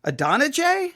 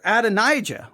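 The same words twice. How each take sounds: First: Adonijah as uh-DON-uh-jay, higher and questioning; questioned pronunciation. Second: Adonijah as ad-uh-NIGH-juh, falling at the end; alternative pronunciation. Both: Shown as a demonstration. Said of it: "Which one is it?".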